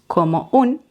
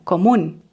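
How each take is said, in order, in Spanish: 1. Las dos palabras se dicen por separado. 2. Las palabras se unen en una sola unidad. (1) "no decimos como un" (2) "sino común"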